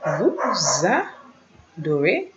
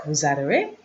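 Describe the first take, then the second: First: "Vous adorez" very slow, pulled apart; slow, separated teaching pronunciation; syllable by syllable. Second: Said in the usual way. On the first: Shown as a demonstration. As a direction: model "Vous adorez" piece by piece for learners. Slow model for learners.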